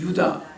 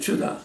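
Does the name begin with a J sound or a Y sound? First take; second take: Y sound; J sound. First: The name begins with a Y sound. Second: The name begins with a J sound. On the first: This is how Korean speakers say the name. "그게 우리 발음은 유다" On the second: This is how English speakers say the name. "실제는 주다야"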